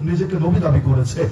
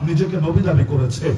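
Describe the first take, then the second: No difference in how they are said.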